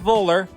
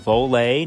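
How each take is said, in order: First: The name ends with an 'er' sound. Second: The name ends with an 'ay' sound. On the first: The speaker calls it wrong. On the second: The speaker calls it right.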